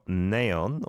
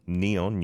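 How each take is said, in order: First: It is said with Korean-style pronunciation. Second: It is said with English-style pronunciation.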